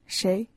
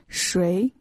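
First: It uses the word's everyday spoken pronunciation. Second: It uses the word's standard dictionary pronunciation. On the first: "when we talk, we change the pronunciation from 谁 to 谁" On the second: "the correct pinyin for the word 谁 is 谁"

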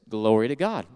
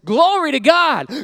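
First: It is said at a calm, normal volume. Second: It is said loudly and very passionately.

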